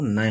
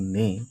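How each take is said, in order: First: The word is said as two vowels, na-ye. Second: The word is said with one long e vowel. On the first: The speaker calls it wrong. "नए हो जाएगा, लेकिन हमें नए नहीं पढ़ना है" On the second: The speaker calls it right. "दोनों ने ये सही है"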